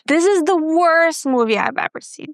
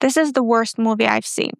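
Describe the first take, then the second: First: The word worst is said with strong stress. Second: The sentence is said with flat, even intonation. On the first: The speaker calls it right. "let me stress the keyword worst" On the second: The speaker calls it wrong. "read it with very even intonation pattern"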